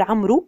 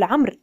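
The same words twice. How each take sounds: First: First عمرو ends in "oo", as amru; mispronounced final waw. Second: عمرو as "amr", closing on the r; correct silent waw. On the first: Teacher recapping what not to say, عمرو as amru. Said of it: "لا نقول". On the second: Teacher recapping the right form, عمرو as amr. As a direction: say عمرو without any final vowel. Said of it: "وإنما نقول". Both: Shown as a demonstration.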